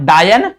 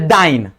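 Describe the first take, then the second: First: The word is said like 'dayan'. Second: The word is said like 'dyne'. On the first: It sounds like the Hindi word for a witch. The speaker calls it wrong. "Not डायन" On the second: It names the CGS unit of force. The speaker calls it right. "It's a डाइन"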